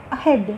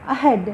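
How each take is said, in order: First: ahead with a light, unstressed అ and weight on head; stress on second syllable. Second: ahead with a light అ and stress on head; stress on second syllable. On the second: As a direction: say ahead, barely touching అ, hitting head. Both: Shown as a demonstration. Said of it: "ఆ అనేది చాలా తేలిగ్గా".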